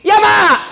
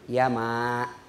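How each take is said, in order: First: The reply is said loudly and rudely. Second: The reply is said softly and politely.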